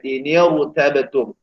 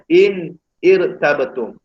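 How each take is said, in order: First: The n takes an i vowel linking the words. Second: The n has no vowel before the next word. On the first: This is how it must actually be read. The speaker calls it right. "Jadi kena baca ... Dibariskan dengan baris bawah" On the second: This is the original underlying form. The speaker calls it wrong. "Sebab perkataan asal dia"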